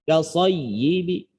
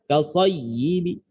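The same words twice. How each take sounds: Both takes have the same delivery.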